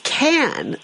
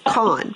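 First: The vowel sounds like the one in cat. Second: The vowel sounds like the one in cot. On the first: The speaker calls it right. "It's can, like a beer can" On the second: The speaker calls it wrong. "we've been saying it wrong"

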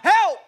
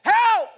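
No difference in how they are said.

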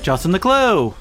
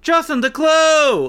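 First: The name is said as a plain introduction. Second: The name is called out like a transformation cry.

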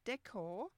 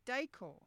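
First: It is said with an American pronunciation. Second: It is said with an Australian pronunciation. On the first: "in the US, when they're talking about decor" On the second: "we say decor"

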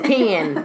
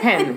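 First: It is said in a Southern accent. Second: It is said in a standard accent. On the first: "it's like the Southerners. They'd be like" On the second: "instead of"

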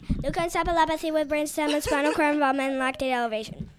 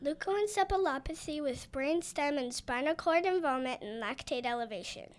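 First: The name is said quickly. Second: The name is said at a normal pace.

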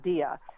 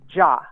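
First: The name is said as two syllables, 'Di-a'. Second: The name is said as one syllable, 'Ja'. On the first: This is how others wrongly say his name. The speaker calls it wrong. "It's not Dia" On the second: This is how the man himself says his name. The speaker calls it right. "the pronunciation of his last name is Ja"

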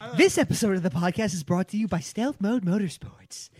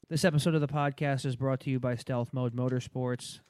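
First: It is read with lively, interested energy. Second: It is read in a flat monotone.

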